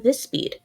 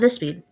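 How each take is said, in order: First: The words are spoken slowly and carefully. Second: The words are spoken quickly and rushed. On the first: This is the pace the character should have. The speaker calls it right. "I'd want her to talk at more of a" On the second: This is the pace the character should not have. The speaker calls it wrong. "not a not a"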